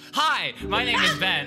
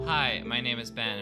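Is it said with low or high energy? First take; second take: high; low. First: It is said with more energy. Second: It is said with low energy.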